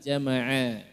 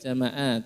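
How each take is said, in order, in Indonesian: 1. Konsonan di tengah itu bunyi ain dari tenggorokan. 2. Konsonan di tengah itu hamzah biasa. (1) "pakai ain Bapak Ibu, bukan jama'a tapi jama'a ya" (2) "bukan jama'a"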